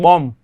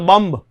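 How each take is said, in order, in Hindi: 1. स्वर 'bomb' में 'o' जैसा सुनाई देता है। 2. स्वर 'but' में 'u' जैसा सुनाई देता है। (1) "सही शब्द इस प्रकार से उच्चारण किया जाएगा" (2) "हम बोलते बम्ब, बम्ब नहीं"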